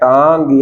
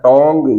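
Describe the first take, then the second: First: The vowel is a long open 'aa' sound. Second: The vowel is a rounded 'o' sound. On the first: "कुछ बच्चे ऐसे बोलते हैं टांग" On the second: "या टोंग"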